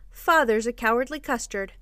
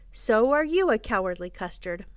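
First: "Father's" hit first and hardest; taunt. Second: "you" stretched and emphasized; retort. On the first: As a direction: stress on "Father's". Children and father trade taunts. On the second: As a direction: stress on "you". Taunt thrown straight back. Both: A narrator's reading.

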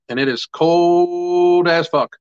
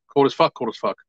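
First: Slow, stretched complaint about the cold; drawn-out emphasis. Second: Said in the usual way. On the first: Real, not acted. Vlogger to viewers about the Pittsburgh cold, slow stretched emphasis. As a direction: lean hard into every word of it.

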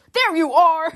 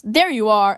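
First: Higher-pitched, hammed-up accusing call; finger-pointing dad. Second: Said in the usual way. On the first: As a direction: imitate a dad pointing you out emphatically. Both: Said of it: "he's, like, pointing a finger".

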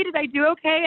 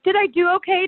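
First: Repeated anxious plea. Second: A pleading high question; anxious retold plea. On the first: Retold or imitated. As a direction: ask it once more, still worried. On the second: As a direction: mimic herself begging for reassurance, higher and louder. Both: Retold bloody match, bawling.

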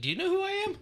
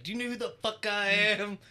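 First: Very high-pitched, puzzled "Do you know who I am?"; genuine confused question. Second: Playful higher-pitched who-do-you-think-I-am act; mock self-importance. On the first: Retold or imitated. Confused guy asking the dude who bumped him, genuinely questioning. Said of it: "I've said it as a question". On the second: Joking with the guys at work, mock self-important. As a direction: pretend to pull rank, pitch raised. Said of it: "we do that at work".

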